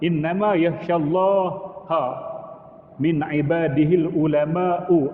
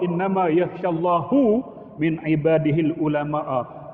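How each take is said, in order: First: Allah ends in -ha, ulama ends in -u. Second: Allah ends in -hu, ulama ends in -a. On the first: The scholars fear God. The speaker calls it right. "Itu betul" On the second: God fears the scholars. The speaker calls it wrong. "Itu tukar makna"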